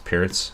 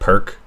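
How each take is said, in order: First: The name ends with a ts sound. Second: The name ends with a plain k sound. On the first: The speaker calls it right. "someone doesn't know that it's Pierce" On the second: The speaker calls it wrong. "that's the most obvious way to, to say this opening's name, but but not how you say it"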